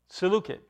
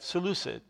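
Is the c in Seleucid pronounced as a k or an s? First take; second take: k; s. First: The c is pronounced like a k. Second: The c is pronounced like an s. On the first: The speaker calls it right. "The C is pronounced like a K" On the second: The speaker calls it wrong. "you will hear it said Seleucid"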